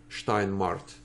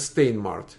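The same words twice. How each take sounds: First: The name is said with German pronunciation. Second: The name is said with English pronunciation. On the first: "по-немецки, Steinmart" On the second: "по-английски, наверное, Steinmart"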